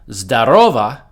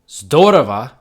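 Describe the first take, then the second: First: The stress is on the second syllable. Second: The stress is on the first syllable. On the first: It is an informal greeting, like hey. "if you stress the second syllable" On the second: It means wonderful. "If you stress the first syllable"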